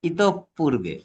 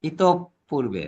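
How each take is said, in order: The two takes are said the same way.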